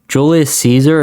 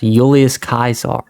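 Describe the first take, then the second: First: Caesar begins with a soft S sound. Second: Caesar begins with a hard K sound.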